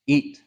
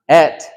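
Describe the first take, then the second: First: The vowel is a long 'ee' sound. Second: The vowel is a short 'e' sound. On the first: The speaker calls it right. "The proper way to say it is eat. Like you're eating an apple" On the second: The speaker calls it wrong. "It's not et"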